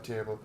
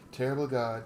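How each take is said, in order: First: Said in the usual way. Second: Terrible punched loud; stress on terrible. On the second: Shown as a demonstration. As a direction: hit the word terrible hard.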